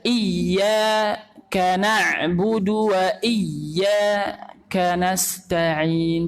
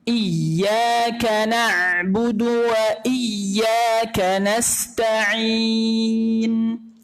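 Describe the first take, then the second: First: There is a short pause after the first word. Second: The phrase flows on without any pause. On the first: The speaker calls it wrong. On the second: The speaker calls it right.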